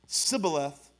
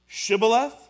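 First: The word begins with a plain 's' sound. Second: The word begins with an 'sh' sound. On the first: The speaker is from Ephraim. The speaker calls it wrong. "Shibboleth was wrong" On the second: The speaker is not from Ephraim. The speaker calls it right. "Shibboleth was right"

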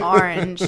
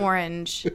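First: The first syllable sounds like 'ar'. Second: The first syllable sounds like 'or'. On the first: This is how the speaker personally says it. "I say orange" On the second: This is how the speaker does not say it. "not orange"

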